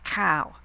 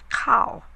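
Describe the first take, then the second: First: It is said in a rough local accent. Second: It is said in careful Queen's English. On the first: The speaker calls it wrong. "You don't say" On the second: The speaker calls it right. "you say"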